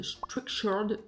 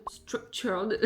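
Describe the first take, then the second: First: French-accented try at English "Structured". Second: Second try at English "Structured" with a clearer t; self-mocked English accent. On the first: Vlogger naming her planning app, attempted English accent. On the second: Vlogger retrying the app's name, joking English accent. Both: Shown as a demonstration. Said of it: "avec mon super accent anglais".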